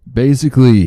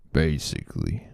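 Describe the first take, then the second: First: "Basically" punched high and loud; emphatic "Basically". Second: Said in the usual way. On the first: Acted. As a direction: hit "Basically" hard and high, then fall.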